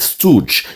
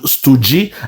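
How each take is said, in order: First: The word ends with a plain j sound. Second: The word ends with an added ee vowel. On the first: The speaker calls it right. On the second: The speaker calls it wrong.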